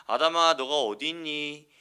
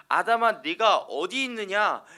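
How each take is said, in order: First: Slow, stern and menacing call to Adam; scary intonation. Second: Higher, louder, slow and longing; loving call. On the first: God to Adam, a slow, menacing call. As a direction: make the question sound frightening, slow and a bit louder. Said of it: "꼭 이런 억양으로 말하면 그럼 되게 무섭게 들리죠". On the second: God gently calling to hiding Adam, tender and pleading. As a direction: call Adam back like a father searching for him. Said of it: "절대 그렇게 말씀하신 게 아니에요". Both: Shown as a demonstration.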